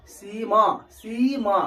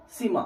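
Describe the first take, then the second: First: सीमा with the ई drawn out long; long vowel demo. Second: सीमा with the first vowel clipped short; short vowel demo. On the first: Teacher showing students the long ई in सीमा. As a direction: stretch the ई in सीमा. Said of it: "समय लग रहा है". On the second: Teacher showing students the short इ sound in सीमा. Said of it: "कम चीज में बोलेंगे सीमा". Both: Shown as a demonstration.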